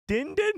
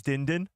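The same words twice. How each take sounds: First: Very high, squeaky questioning Grogu; Grogu's first word. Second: Said in the usual way. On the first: Pretend. Host imagining Grogu's first word, very high-pitched questioning voice. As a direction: pipe it up high like a tiny creature asking. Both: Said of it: "His first word is".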